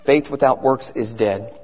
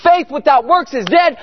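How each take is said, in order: First: Very low, softened preaching; quiet solemn reminder. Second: Said in the usual way. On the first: Real, not acted. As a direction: drop the voice to let the verse sink in. Key verse repeated low and quiet.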